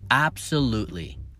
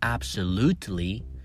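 First: The T sound is dropped. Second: The T sound is clearly pronounced. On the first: The speaker calls it right. "The correct way is absolutely" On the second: The speaker calls it wrong. "Not absolutely"

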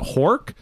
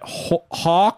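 First: The vowel is said with an r sound. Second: The vowel is said with no r sound.

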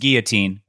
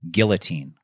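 First: The double L is sounded as a Y. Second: The double L is sounded as an L. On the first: The speaker calls it right. "A double L in in there is pronounced like a Y" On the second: The speaker calls it wrong. "is he pronouncing this word correctly? He said it a few times this season"

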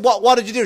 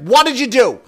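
First: The question is asked gently and hesitantly. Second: The question is asked firmly and forcefully.

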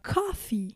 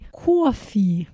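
First: It is said in a standard accent. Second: It is said in a New York accent.

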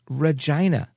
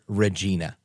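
First: The name is said the Canadian way. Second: The name is said the American way. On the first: "But in Canada, they use the name Regina" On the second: "we use the name here"

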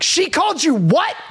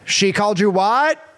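First: It is said with emotional emphasis. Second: It is said flat, without emphasis.

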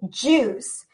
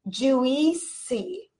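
First: No extra vowel sound comes before the s. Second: An extra vowel sound is said before the s. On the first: The speaker calls it right. "It is juice" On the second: The speaker calls it wrong. "the I is going to be silent. We do not say juicy"

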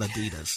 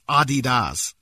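First: The name is said the usual American way. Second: The name is said in a non-American way. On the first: The speaker calls it wrong. "Not Adidas" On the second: The speaker calls it right. "Americans pronounce Adidas wrong. It's Adidas"

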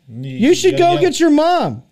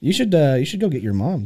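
First: It is yelled loudly. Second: It is spoken at a normal, calm volume. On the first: "There you go" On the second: "Because you didn't yell it"

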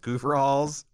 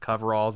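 First: The first syllable sounds like 'coo'. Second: The first syllable sounds like 'cove'.

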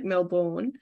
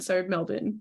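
First: The last syllable sounds like born. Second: The last syllable sounds like bin. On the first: This is how Americans often say it. The speaker calls it wrong. "It's pretty common for Americans to say, like" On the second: This is how many Australians say it. The speaker calls it right. "it does sound like we're saying bin"

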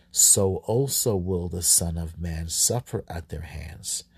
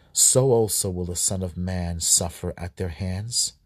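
Both takes have the same delivery.

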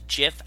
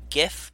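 First: The word begins with a soft J sound. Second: The word begins with a hard G sound. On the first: The speaker calls it right. "they pronounce it as GIF, as in Jiffy peanut butter, with a J sound, or like a very soft G" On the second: The speaker calls it wrong. "not a hard G like GIF"

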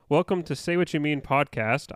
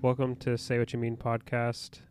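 First: It is said in a lively, energetic way. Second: It is said in a flat, boring way.

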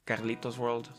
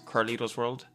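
First: The name is pronounced the Spanish way. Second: The name is pronounced the English way. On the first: The speaker calls it wrong. "It's not Carlito's World. Don't say it in Spanish" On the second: The speaker calls it right. "it's Carlito's World"

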